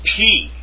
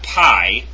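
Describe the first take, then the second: First: The letter name is pronounced in a Greek way. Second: The letter name is pronounced in an anglicized way. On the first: The speaker calls it right. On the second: The speaker calls it wrong. "It's not"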